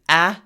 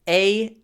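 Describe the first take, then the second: First: The vowel is short and plain. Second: The vowel is long and glides.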